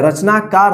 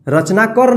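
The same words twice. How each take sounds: First: रचनाकार with a long aa in the last syllable, kaar; रचनाकार said the right way, long final vowel; correct long ending. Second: रचनाकर with a short a in the last syllable, like kar; रचनाकर said the wrong way, short final vowel; wrong short ending. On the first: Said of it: "रचनाकार होता है". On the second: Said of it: "रचनाकर नहीं होता है". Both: Shown as a demonstration.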